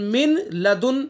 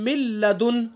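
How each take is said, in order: First: The n sound is clearly pronounced before l. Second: The n merges fully into a doubled l. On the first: "मिन है ये असन मिन लदुन" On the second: "इदगाम ताम हो गया। तो क्या पढ़ा"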